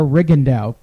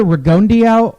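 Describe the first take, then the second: First: Rigondeaux said RIG-un-dow, three syllables; second pronunciation option. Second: Rigondeaux said ree-GON-dee-ow, four syllables; first pronunciation option. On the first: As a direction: say Rigondeaux shorter, without the dee. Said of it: "make your choice". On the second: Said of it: "it's either Rigondeaux or Rigondeaux". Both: Shown as a demonstration.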